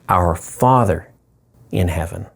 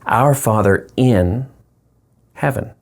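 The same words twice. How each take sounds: First: The stress falls on the word Father. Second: The stress falls on the word in.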